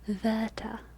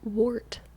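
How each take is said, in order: First: It is said with British vowels and R. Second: It is said with an American accent. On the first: "with the German W, V, V, and then all of the vowels in there are British" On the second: "say that in an American accent"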